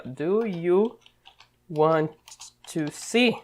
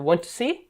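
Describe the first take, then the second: First: Full question form, word by word with pauses; full formal question. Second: "Want to see?" in one go, rising on "see"; direct informal question. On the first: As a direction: say "Do you ... want ... to see?" in careful separate pieces. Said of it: "o certo deveria ser isso aqui". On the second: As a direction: ask it straight, only the rising tune on "see" marking the question. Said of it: "ele já fala direto". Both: Shown as a demonstration.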